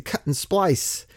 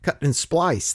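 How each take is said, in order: First: Slowed right down, "splice" stressed; drawn out for emphasis; slow deliberate repeat. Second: Splice stressed with a falling close; emphasized phrase. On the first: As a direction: spell out "Cut and splice" word by word. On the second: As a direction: lean on "splice", let it fall. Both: Shown as a demonstration.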